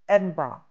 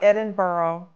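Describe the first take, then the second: First: The last part sounds like bra. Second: The last part sounds like borough. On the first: The speaker calls it right. "B R A H. Or like an undergarment for a woman. Edinburgh. That's it" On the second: The speaker calls it wrong. "It's not Edinburgh. It's not an area in New York City"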